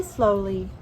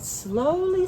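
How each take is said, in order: First: Said in the usual way. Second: Drawn out slowly. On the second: A narrator's reading. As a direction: stretch slowly out, a bit higher.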